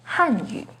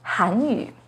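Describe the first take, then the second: First: The first syllable has a falling pitch. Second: The first syllable has a rising pitch. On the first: It means the Chinese language. "with the fourth falling tone on Han" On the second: It means the Korean language. "has a second rising tone on Han"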